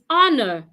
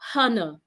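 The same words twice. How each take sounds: First: The word starts with a vowel, no h sound. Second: The word starts with an added h sound. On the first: The speaker calls it right. "Another word is honor" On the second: The speaker calls it wrong. "not honor"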